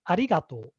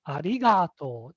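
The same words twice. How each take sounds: First: The high pitch falls before the syllable ga. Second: The high pitch falls on the syllable ga. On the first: This is the standard pronunciation. "the correct intonation is arigato" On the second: This is how Nagoya speakers say it. "the high pitch on the ga"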